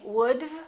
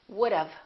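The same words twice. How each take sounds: First: It ends without a short 'uh' vowel before v. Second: It ends in a short 'uh' vowel plus v. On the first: The speaker calls it wrong. "Don't say would've" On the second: The speaker calls it right. "It's would've"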